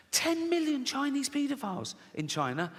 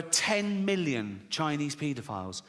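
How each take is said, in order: First: High-pitched incredulous repeat; mock astonishment. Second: Said in the usual way. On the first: Shown as a demonstration. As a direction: marvel at it, pitched right up. Repeats statistic in mock amazement.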